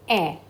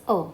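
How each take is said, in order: First: A as an open "eh"; E accent grave. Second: A as a relaxed neutral "uh"; unaccented French E. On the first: Teacher showing students accent grave, A said as open "eh". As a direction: say A like the vowel in "bet". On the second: Teacher showing students E without accent, A said as "uh". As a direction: say A as a short schwa, "uh". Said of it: "if I don't put any accent". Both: Shown as a demonstration.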